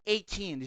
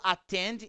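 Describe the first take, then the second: First: The first vowel is an English 'ay' sound. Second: The first vowel is a Portuguese-style open 'a'. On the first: The speaker calls it wrong. "e não attend" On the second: The speaker calls it right. "eu falo attend"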